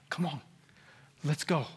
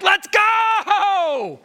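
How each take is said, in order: First: Soft, low gentle coaxing; outwardly restrained. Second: High, long-held yell; inward impatient shout. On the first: Pastor outwardly urging his church, soft and restrained. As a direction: hold it back, very softly. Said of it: "And outwardly, I'm like". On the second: Pastor inwardly urging his church on, impatient shout. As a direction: burst out hollering, stretching GO. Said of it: "Inwardly, I'm like". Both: Acted.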